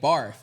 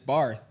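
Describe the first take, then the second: First: The name ends with an f sound. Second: The name ends with a th sound. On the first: "It came out as an F" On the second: "name was Miss Barth"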